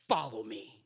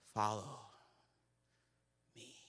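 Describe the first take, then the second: First: It is said sharply and angrily. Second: It is said theatrically with a dramatic pause.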